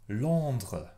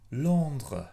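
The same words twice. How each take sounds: The two takes are said the same way.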